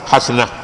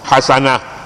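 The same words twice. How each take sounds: First: The s is said without a following vowel. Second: The s is followed by a clear a vowel. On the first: The speaker calls it wrong. "jangan baca hasanah" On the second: The speaker calls it right. "sin tu baik atasnya"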